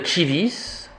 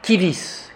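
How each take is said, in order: First: The word begins with a soft ch sound. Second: The word begins with a hard k sound. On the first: "Au lieu de" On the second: "on va prononcer dans la prononciation restituée"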